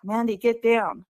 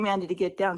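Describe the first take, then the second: First: Calling out loudly in alarm; urgent call. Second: Said in the usual way. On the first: Retold or imitated. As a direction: yell up at her to get down. Brother calling sister off bear.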